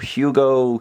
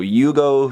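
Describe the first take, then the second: First: The name begins with an H sound. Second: The name begins with a Y sound. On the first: "the English says Hugo, obviously there with an H" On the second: "the Japanese says Yugo"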